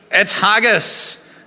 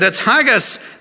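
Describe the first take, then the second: First: Slow, stretched-out announcement, pitch raised; teasing slow reveal of haggis; drawn-out reveal. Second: Said in the usual way. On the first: Acted. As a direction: savour the word like a big reveal. Reveal to the congregation.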